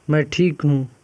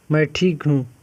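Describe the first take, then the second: No difference in how they are said.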